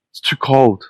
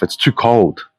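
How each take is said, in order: First: High sneering repeat of too cold; mock the woman's whine; mocking echo. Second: Said in the usual way. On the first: Echoing the woman's complaint in high mockery. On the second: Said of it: "the woman's voice say".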